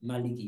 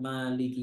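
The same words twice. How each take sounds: First: The first vowel is kept short. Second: The first vowel is drawn out long. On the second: "mimnya dipanjangkan"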